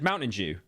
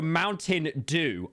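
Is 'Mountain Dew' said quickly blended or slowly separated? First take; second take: quickly blended; slowly separated. First: The words are said quickly and run together. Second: The words are said slowly and kept separate. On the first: "I say things quickly" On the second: "I don't speak slowly like a moron"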